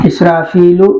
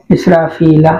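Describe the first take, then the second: First: इसराफीलु with a final u, as the form to avoid; wrong case ending. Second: इसराफीला ending on a clear a; correct ending. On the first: Teacher shows students the wrong ending first. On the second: Teacher gives students the right ending after the wrong one. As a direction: give इसराफीला its final a, the correct form. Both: Shown as a demonstration.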